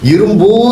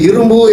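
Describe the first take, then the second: First: The final vowel is held long. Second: The final vowel is short. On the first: This is the original full form of the word. "இந்த பூ என்ற சொல்லு வந்து அது குறில் இல்லை, நெடில்" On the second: This is the shortened everyday spoken form. "பேச்சு வழக்கில் இரும்புன்னு சுருங்கி போச்சு"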